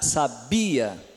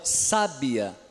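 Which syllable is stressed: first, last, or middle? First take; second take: middle; first. First: The stress is on the middle syllable. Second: The stress is on the first syllable. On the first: "aqui vem antes do bi" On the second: "o forte vai ser o sa"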